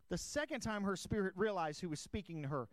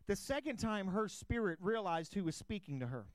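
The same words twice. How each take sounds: The two takes are said the same way.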